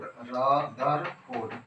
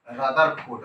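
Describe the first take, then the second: First: Rutherford stretched out very slowly; drawn out slowly. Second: Said in the usual way. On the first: Shown as a demonstration. Teacher repeating Rutherford slowly for students. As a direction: lengthen Rutherford for dictation. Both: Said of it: "क्या बोलने का है".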